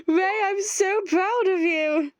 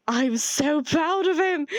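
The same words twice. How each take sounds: First: Much higher, slow and doting; doting sing-song praise; gushing pride. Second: Slow, high, gushing pride; breathless delighted praise; proud gasp. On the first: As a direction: coo the praise at Ray like a proud parent. Repeated proud exclamation to Ray. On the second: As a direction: gasp then beam with pride. Gasping, proud exclamation read. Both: Acted.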